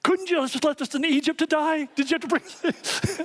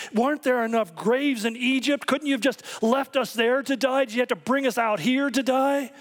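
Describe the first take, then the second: First: Much higher, squeaky mock complaint; mock whiny Moses. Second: High, frantic complaining cry; panicking crowd. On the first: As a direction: play him griping to God in a comic high voice. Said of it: "calmly turns to the Lord and says". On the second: Retold or imitated. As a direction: wail it like a terrified crowd fleeing chariots. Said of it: "the people are panicking and saying".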